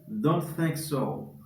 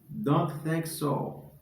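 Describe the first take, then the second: Both takes have the same delivery.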